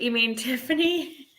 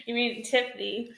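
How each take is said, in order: First: "you mean Tiffany?" said through a laugh. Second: Said in the usual way. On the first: Real, not acted. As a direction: giggle through the question. Laughing at a chat message.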